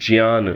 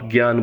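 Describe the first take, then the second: First: The cluster is said the traditional Sanskrit way. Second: The cluster is said the everyday Hindi way. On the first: "मैं उच्चारण लगातार करता हुआ आ रहा हूं" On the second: "जिसे आप ज्ञान बोलते हैं"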